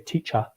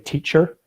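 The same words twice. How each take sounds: First: The final R sound is dropped. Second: The final R sound is strongly pronounced. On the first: This is how an English speaker says it. "an English person would say teacher" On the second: This is how an Irish speaker says it. "people from Ireland have a, a strong R sound in their voice. So we I would say teacher"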